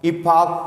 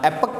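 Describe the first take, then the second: First: It is said in a British accent. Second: It is said in an American accent.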